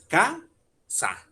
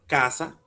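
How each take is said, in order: First: "ca-sa" said slowly, with a clear pause between the two syllables; split into syllables. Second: Said in the usual way. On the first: Shown as a demonstration. Teacher breaking the word into syllables for students, slowly. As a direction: tap out "ca-sa" in two slow, even beats. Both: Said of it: "Dividamos la palabra en sílabas".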